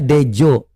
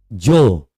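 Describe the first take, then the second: First: Dejo read letter by letter as de-jo, two syllables; wrong reading Dejo. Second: Jo as one syllable, the D silent; old-spelling DJO spoken simply as Jo; correct reading Jo. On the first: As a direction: say Dejo as spelled, de then jo. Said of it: "itu bukan bacanya Dejo". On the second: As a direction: say Jo short, just jo. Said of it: "Itu bacanya Jo". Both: Shown as a demonstration.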